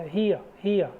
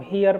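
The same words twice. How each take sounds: First: हियर as hee-uh, final r silent; correct pronunciation. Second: हियर with a sounded r at the end, hee-er; wrong pronunciation. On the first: Teacher corrects students, हियर without the r. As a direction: say हियर ending on a soft uh with no r. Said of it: "last में आर है उसका कोई उच्चारण नहीं". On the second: Teacher shows students the wrong हियर, r sounded. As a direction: say हियर wrongly, pronouncing the final r. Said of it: "हियर पढ़ेंगे तो गलत है". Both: Shown as a demonstration.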